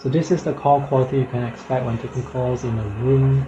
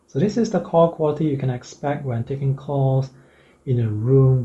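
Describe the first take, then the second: First: The voice is heard over loud cafe noise. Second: The voice is heard with a quiet background. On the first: "with very loud background noise" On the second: "in a room without any background noise"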